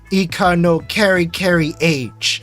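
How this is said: It is pronounced with English sounds. The speaker calls it wrong. "someone that has zero exposure to the Japanese language"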